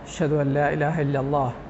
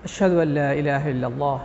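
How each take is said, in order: Both takes have the same delivery.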